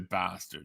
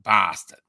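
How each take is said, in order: First: It is said in an American accent. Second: It is said in an English accent. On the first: "the Americans say bastard" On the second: "the English are more like bastard"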